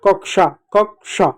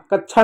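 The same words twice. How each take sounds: First: कक्षा said "kak-sha"; correct sh sound. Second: कक्षा mispronounced "kach-chha"; wrong chh sound. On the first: Teacher correcting the mistake for children, कक्षा as "kak-sha". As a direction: clear k then sh in कक्षा. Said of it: "श जैसे इसका उच्चारण होता है". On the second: Teacher showing children the mistake, कक्षा as "kach-chha". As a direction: chh in place of ksh in कक्षा. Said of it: "कक्षा नहीं". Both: Shown as a demonstration.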